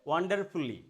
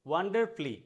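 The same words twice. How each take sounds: The two takes are said the same way.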